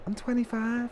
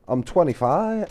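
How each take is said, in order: First: Spoken in a high, squeaky voice. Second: Spoken in a lower, deeper voice. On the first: The speaker calls it right. "with his little squeaky voice" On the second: The speaker calls it wrong. "Sorry, I got the voice wrong"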